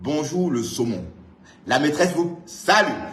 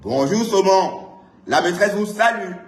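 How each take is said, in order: First: It is read at a normal volume. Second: It is shouted very loudly.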